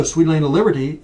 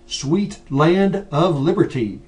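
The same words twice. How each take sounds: First: "Sweet land of liberty" run together quickly into one blur; rushed, slurred version of the line; blurred rush. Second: "Sweet land of liberty" slow and louder, each word crisply separated; slow, careful projection for a room with no mic; projected and articulated. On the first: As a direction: let the words smear together carelessly. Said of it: "it's gonna be one big blur". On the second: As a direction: project it to the back row, every consonant clear. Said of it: "if you don't have a mic and you're trying to project". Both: Shown as a demonstration.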